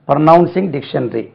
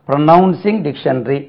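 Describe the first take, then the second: No difference in how they are said.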